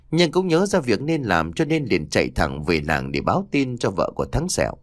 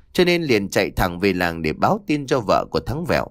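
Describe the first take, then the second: First: Name read as "Sẹo" with an s sound; slip of the name. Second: Name read as "Vẹo" with a v sound; re-read the line and say "Thắng Vẹo" with a clear v; corrected name. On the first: The narrator misreads the dead man's name as "Sẹo". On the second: The narrator corrects the name to "Vẹo" in a plain reading. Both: Shown as a demonstration.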